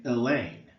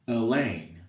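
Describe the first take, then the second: Both takes have the same delivery.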